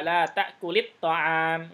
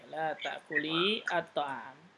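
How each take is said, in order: First: The words are linked with a short vowel. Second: The words are separate with a long final vowel.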